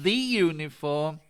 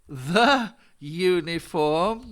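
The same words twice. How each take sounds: First: The word 'the' is said with a long 'thee'. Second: The word 'the' is said with a short 'thuh'. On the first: The speaker calls it wrong. "not the uniform" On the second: The speaker calls it right. "we say the uniform"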